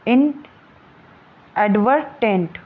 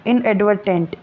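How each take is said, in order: First: इनएडवर्टेंट stretched very slowly, syllable by syllable, with the टेंट ending clear; drawn-out syllables. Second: Said in the usual way. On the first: Shown as a demonstration. Teacher drilling the class on इनएडवर्टेंट, very slow and drawn out. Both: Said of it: "ऐसे टेंट".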